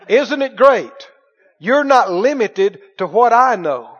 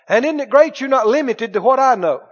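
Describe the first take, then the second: First: It is said very slowly. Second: It is said at a normal pace.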